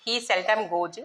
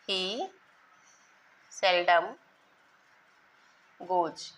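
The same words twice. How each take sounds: First: Said in the usual way. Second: Each word slow, with long pauses between; teacher dictating slowly with pauses; word-by-word dictation. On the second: Shown as a demonstration. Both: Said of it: "देख लीजिए example".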